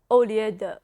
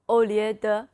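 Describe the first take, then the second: The two takes are said the same way.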